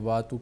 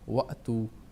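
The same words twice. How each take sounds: First: The first vowel is simply lengthened without a catch. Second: A sharp glottal catch follows the first vowel. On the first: The speaker calls it wrong. "अलिफ मद्दा की तरह पढ़ते हैं, चूँकि दुरुस्त नहीं है" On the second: The speaker calls it right. "इसको हम झटके सी आवाज़ देंगे"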